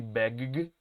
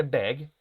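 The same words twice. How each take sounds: First: "beg" with an exaggerated, repeated G at the end; doubled final G. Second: Said in the usual way. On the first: Shown as a demonstration. Teacher shows class what not to say, "beg" with doubled G. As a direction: overdo "beg" as beg-guh-guh, stuttering the last consonant. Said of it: "No es que ustedes tengan que decir beg". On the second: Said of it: "Sino que simplemente beg".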